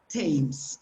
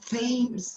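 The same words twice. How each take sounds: First: It begins with a plain t sound. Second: It begins with a th sound as in think. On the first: The speaker calls it right. "it's Thames, okay? It's a different pronunciation for the T H" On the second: The speaker calls it wrong. "It's not Thames"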